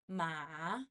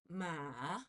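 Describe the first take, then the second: No difference in how they are said.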